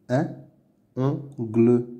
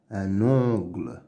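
First: "Un ongle" as "un", "on", "gle", no liaison; syllable by syllable. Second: Said in the usual way. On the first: Shown as a demonstration. Teacher sounding out words to read, "Un ongle" in separate syllables. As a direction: pause between the pieces of "Un ongle". Reading drill, split then blended.

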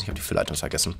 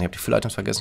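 First: Dismayed whisper. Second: Said in the usual way. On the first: Real, not acted. Streamer realizing he forgot the filler items, whispering. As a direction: breathe it out, almost voiceless. Repeats mistake, voice drops away.

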